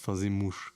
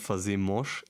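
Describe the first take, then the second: First: The vowel is pronounced like 'u'. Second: The vowel is not pronounced like 'u'. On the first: The speaker calls it right. "It's like an U" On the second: The speaker calls it wrong. "It's not fazemos"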